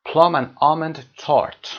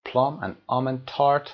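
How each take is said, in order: First: Slow, louder model reading. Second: Said in the usual way. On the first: Shown as a demonstration. Teacher models English item.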